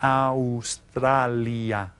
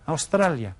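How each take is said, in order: First: Australia very slow, each vowel given its full sound; every vowel pronounced. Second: Said in the usual way. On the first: Shown as a demonstration. Teacher drills Spanish pronunciation for class, Australia very slow, each vowel sounded. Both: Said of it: "Pronounce each of the vowels".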